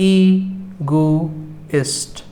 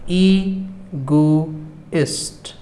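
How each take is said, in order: The two takes are said the same way.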